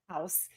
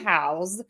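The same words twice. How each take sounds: First: The word ends with an s sound. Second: The word ends with a z sound. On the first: It is the thing that people live in. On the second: It is the verb for giving people a place to live.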